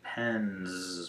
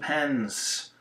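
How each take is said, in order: First: The word ends with a buzzing z sound. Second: The word ends with a hissing s sound. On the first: The speaker calls it right. "it should be pens because n is voiced, so we make it a Z sound" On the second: The speaker calls it wrong. "believes that S is always pronounced S"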